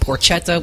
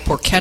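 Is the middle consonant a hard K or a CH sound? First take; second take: CH; hard K. First: The middle consonant is a CH sound. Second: The middle consonant is a hard K sound.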